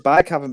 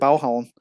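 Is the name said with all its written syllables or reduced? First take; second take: full; reduced. First: Every written syllable is said in full. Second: The syllables are shortened and run together. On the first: The speaker calls it wrong. "everyone says Baghaven" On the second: The speaker calls it right. "it's actually Bauhavn. That's how the Danes say it"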